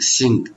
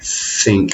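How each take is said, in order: First: It begins with an s sound. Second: It begins with the tongue between the teeth. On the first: The speaker calls it wrong. "They don't want to use their tongue too much" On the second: The speaker calls it right. "You can put your finger there and go think"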